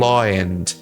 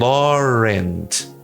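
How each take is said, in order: First: The words are said without a linking r sound. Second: A short, quick r sound links the two words. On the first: The speaker calls it wrong. "eles não falam law and" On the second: The speaker calls it right. "eles falam Laurent. Só que esse R é muito curto e muito rápido"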